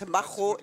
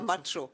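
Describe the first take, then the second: First: The name is pronounced the Czech way. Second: The name is pronounced the Spanish way. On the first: The name is of Czech origin. The speaker calls it right. "c'est l'origine tchèque et pas l'origine espagnole. Donc, on le prononce macho" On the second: The name would be of Spanish origin. The speaker calls it wrong. "et pas macho"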